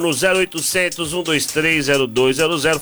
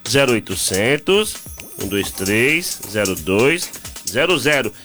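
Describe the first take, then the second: First: The number is said fast. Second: The number is said slowly.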